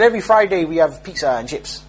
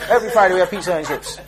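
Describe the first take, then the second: First: Said in the usual way. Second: Laughing disbelief. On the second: Retold or imitated. Preacher laughing at the brother's prison pizza. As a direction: repeat it through a laugh. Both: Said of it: "he said".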